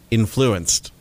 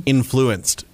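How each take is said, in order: First: "influenced" said short with a falling end; a quick, odd "influenced" dropping at the end; random emphasis. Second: "influenced" drawn out slowly, falling at the end; random emphasis. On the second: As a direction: stretch out "influenced" with odd stress. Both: Retold or imitated. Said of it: "with weird inflection".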